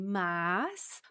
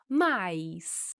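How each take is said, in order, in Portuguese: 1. A palavra tem uma vogal simples. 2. A palavra tem um ditongo ai. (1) "com a pronúncia de mas, com esse sonzinho no final" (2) "podemos fazer um ditongo com esta palavra e pronunciar mais"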